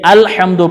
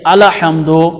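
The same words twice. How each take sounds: First: The l sound joins straight onto the h sound. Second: A vowel is added after the l sound. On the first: The speaker calls it right. "अल-हम्दु पढ़ना है" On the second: The speaker calls it wrong. "अल-हम्दु नहीं पढ़ना"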